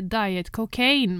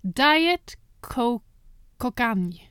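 First: The second word sounds like cocaine. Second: The second word does not sound like cocaine.

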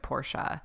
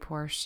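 First: It is said in a fancy, snobby-sounding way. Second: It is said in a plain, everyday way. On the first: "he pronounced it Porsche. But I remember thinking that it felt very snobby" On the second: "I just say Porsche"

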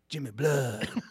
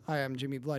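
First: The name is said boldly and dramatically. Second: The name is said in a plain, casual way.

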